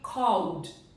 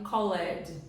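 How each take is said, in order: First: The ending is a bare d sound. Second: The ending is said as an extra syllable. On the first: The speaker calls it right. "o correto seria called" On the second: The speaker calls it wrong. "Eu já ouvi muito, muito, muitas pessoas falarem called"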